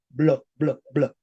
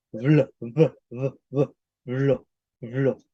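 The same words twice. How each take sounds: First: "Blo, blo, blo" with popped, stopped b; medieval hard B. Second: Never close the lips on the b of "blo"; modern fricative B. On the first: Teacher contrasts medieval sound for students, hard b in "blo". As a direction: burst each "blo" from closed lips. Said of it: "Español medieval se decía establo". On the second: Teacher demonstrates modern sound to students, fricative b in "blo". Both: Shown as a demonstration.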